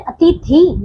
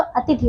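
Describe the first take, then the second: First: अतिथि with a long stressed final "thee"; mispronounced word. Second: अतिथि with a short, softer final "thi"; correct pronunciation. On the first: Teacher shows pupils the wrong word, mispronounced. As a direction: stretch the end of अतिथि, "ati-thee". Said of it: "नहीं बच्चों". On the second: Teacher corrects the word for pupils, properly pronounced. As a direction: keep the last vowel of अतिथि short. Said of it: "अतिथि होता है". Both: Shown as a demonstration.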